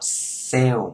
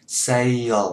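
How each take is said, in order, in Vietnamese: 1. Từ này được đọc thành một âm tiết ngắn. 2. Từ này được tách thành hai âm tiết. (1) "Đừng có đọc sale. Sale ra một tiếng đó, nó người ta sẽ nhầm ra tiếng sell" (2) "mình tách nó ra làm hai tiếng"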